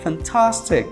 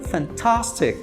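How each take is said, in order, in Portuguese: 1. O a é um som de a aberto. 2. O a é um som de a aberto.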